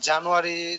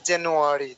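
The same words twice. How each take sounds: First: The r sound is dropped. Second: The r sound is clearly pronounced. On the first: The speaker calls it wrong. "আমি কিন্তু প্রথমেই ভুল বলছি" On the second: The speaker calls it right. "এটার উচ্চারণটা হবে এরকম যে; আর কিন্তু উচ্চারণ হচ্ছে"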